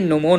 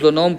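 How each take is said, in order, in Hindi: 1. इस शब्द की शुरुआत N ध्वनि से होती है। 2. इस शब्द की शुरुआत एक बोली जाने वाली G ध्वनि से होती है। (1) "लेकिन एक्चुअली में ये नोमोन होता है" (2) "मेरे सबकॉन्शियस माइंड में इसका प्रोनाउंसिएशन हमेशा से गलत बसा हुआ है"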